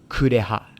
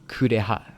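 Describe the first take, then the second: Both takes have the same delivery.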